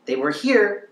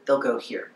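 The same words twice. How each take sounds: First: "here" pitched up high; high level. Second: "here" dropped down in pitch; dropped low. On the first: Coach showing where their ex was, pitched high. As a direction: say "They were here" high, lifting "here". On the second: Coach showing the ex's drop, pitched down. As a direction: say "they'll go here" low, falling on "here". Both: Shown as a demonstration. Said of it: "They'll go down".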